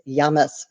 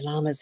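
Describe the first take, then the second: First: It is said the South American way. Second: It is said the usual American way.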